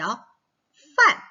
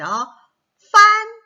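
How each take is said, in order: First: 판 drawn out very slowly and loud, with a fourth tone; falling tone model. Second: 판 said loud as the target sound; loud model word. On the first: Teacher modelling fourth tone 판 for kids. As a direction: drag out 판 with a sharp falling tone. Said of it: "사 성이 되겠죠". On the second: Teacher showing kids the sound 판, loud. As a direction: stress 판 loudly. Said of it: "어떤 발음일까요". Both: Shown as a demonstration.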